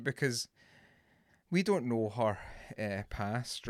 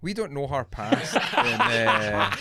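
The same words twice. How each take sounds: First: Intervention voice. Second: Breaking into laughter mid-line; the mock seriousness cracks into a laugh. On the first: Pretend. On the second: Real, not acted. Host laughs at own intervention voice, laughing. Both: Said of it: "this is my intervention voice".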